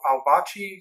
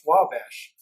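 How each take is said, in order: First: The name ends with an 'ee' sound. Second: The name ends with a 'sh' sound. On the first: The speaker calls it wrong. "That's how people think it is" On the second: The speaker calls it right. "but it's actually pronounced Wabash"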